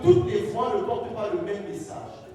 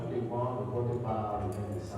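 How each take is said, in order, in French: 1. La voix est forte et porte bien. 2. La voix est faible et manque d'énergie.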